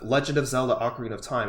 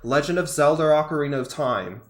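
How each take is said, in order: First: Zelda and Ocarina end with an 'ah' sound. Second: Zelda and Ocarina end with an 'er' sound. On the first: "instead of" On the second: "it'll sound more like"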